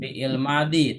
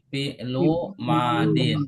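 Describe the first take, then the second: First: The case endings are dropped, Indonesian style. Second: The case endings are pronounced in full. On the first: The speaker calls it wrong. "Jangan fi'il madi, Kalau fi'il madi itu bahasa Indonesia" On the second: The speaker calls it right. "tapi fi'lu madin"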